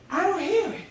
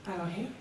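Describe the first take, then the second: First: High-pitched, lifted discovery; raised pitch, wondering relief; dawning realisation. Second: Very soft, low, rising question-like end; small, quiet testing of the silence; hushed, tentative. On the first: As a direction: say it as a sudden realisation. Realising the voice is gone. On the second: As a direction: barely say it, as if still listening. Listening after the voice fades. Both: Acted.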